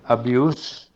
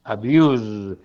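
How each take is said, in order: First: Abuse with a hissed S at the end, like abjus; noun abuse. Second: Abuse with a buzzing Z at the end, like abjuz; verb abuse. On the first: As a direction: say abuse ending on a voiceless S. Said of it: "termina por una S sorda". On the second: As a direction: say abuse ending on a voiced Z. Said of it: "es con una S sonora". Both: Shown as a demonstration.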